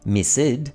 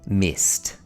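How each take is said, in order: First: The ending is said as an extra syllable. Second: The ending is a single t sound. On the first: The speaker calls it wrong. "We don't say" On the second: The speaker calls it right. "we say"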